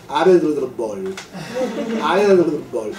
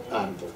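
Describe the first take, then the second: First: Árbol mangled as aredbol, tongue out, with a laugh; toddler pronunciation. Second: Said in the usual way. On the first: Retold or imitated. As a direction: imitate a toddler straining to say árbol. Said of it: "lo dice así". (árbol dicho como niña pequeña, con la lengua afuera) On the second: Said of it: "mi nieta aprendió a decir la palabra árbol".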